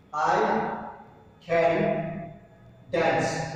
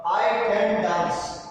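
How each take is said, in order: First: "I ... can ... dance." with a long pause before each word. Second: Said in the usual way. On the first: Shown as a demonstration. Teacher to students spelling out the example, pausing between words. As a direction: space out "I", "can" and "dance" as separate beats. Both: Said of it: "What will be the question tag?".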